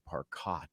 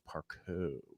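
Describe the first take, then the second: First: The surname is pronounced the English way. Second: The surname is pronounced the French way. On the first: This is the family's old everyday name. "that's no longer [name]" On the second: This is the new name adopted for acting. "I changed it to the French pronunciation"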